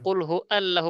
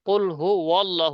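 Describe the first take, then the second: First: Hu and allahu are said without a w link. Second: Hu and allahu are joined by a w sound. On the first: The speaker calls it wrong. "কুল হু আল্লাহু বলেছেন কেন?" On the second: The speaker calls it right. "ওয়াও দিয়ে"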